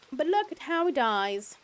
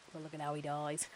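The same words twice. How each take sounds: First: High, loud, drawn-out mock delight; slow, over-the-top high voice; hammed-up exclamation. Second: Soft, understated remark; hushed little comment; quiet aside. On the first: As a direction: sing it out slowly and high. Repeats remark in hammed-up voice. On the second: Pretend. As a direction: say it low-key and under your level. Same remark repeated louder after.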